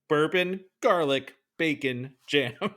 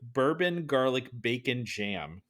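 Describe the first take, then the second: First: The phrase is said slowly and deliberately. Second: The phrase is said at a normal pace.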